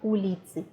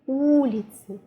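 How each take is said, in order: First: The stress is on the last syllable. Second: The stress is on the first syllable. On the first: The speaker calls it wrong. "We don't have улицы" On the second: The speaker calls it right. "we have улицы"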